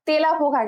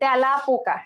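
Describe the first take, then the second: First: The first vowel is a closed 'e' sound. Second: The first vowel is an open 'ae' sound. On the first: The speaker calls it wrong. "তেলা পোকা কিন্তু বলি না" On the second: The speaker calls it right. "কি বলি তেলা পোকা"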